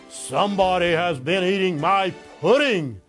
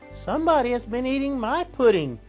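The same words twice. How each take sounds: First: It is said in a great big voice. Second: It is said in a middle-sized voice.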